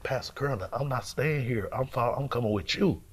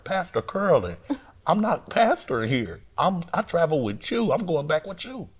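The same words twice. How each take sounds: First: Said in the usual way. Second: Higher, more insistent retold protest; getting louder. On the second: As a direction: press the point to someone ignoring you. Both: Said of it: "I'm getting louder".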